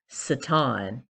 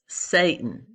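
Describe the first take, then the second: First: The name has an ancient Hebrew pronunciation. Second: The name has an everyday English pronunciation. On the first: The speaker calls it right. "the actual pronunciation would be Satan, more appropriately in the ancient Hebrew" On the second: The speaker calls it wrong. "known as Satan"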